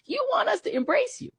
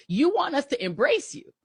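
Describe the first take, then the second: First: Much higher, incredulous mocking lift; mocking disbelief. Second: Pointed, rising accusation; emphatic accusation. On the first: Host repeating the charge to right-wingers, high and mocking. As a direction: throw it back at them in mock disbelief. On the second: Host accusing right-wing viewers, pointed and firm. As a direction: lay the charge out firmly with a lift at the end. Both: Real, not acted.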